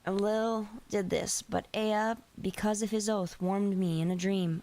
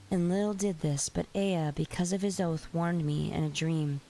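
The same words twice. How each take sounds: First: It is read in a plain, ordinary voice. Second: It is read in a soft, cozy voice. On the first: "I forgot to do my cozy voice" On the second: "Let me switch to my cozy voice"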